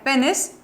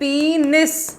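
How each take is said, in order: First: The first vowel is a short 'e' sound. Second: The first vowel is a long 'ee' sound. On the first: The speaker calls it wrong. "Which is a wrong pronunciation" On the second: The speaker calls it right. "पीनिस ऐसा pronounce होता है ये"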